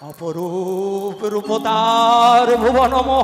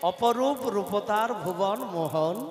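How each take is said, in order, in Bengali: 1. এটি গা ছমছমে, ভয়ের ভঙ্গিতে বলা হচ্ছে। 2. এটি সাধারণ, স্বাভাবিক ভঙ্গিতে বলা হচ্ছে। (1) "ভয় যাতে পায় সেই জন্য বলছে" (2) "বলবার ধরন এইরকম বললে তো আর ননদিনী ভয় পাবে না"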